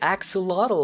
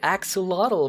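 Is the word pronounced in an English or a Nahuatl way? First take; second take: English; English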